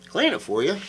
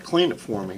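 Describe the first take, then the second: First: "Clean it for you?" echoed high and incredulous, rising on "you"; mock disbelief. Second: Said in the usual way. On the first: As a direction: throw "Clean it for you?" back in mock shock, pitch up. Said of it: "And I'm like". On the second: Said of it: "He says".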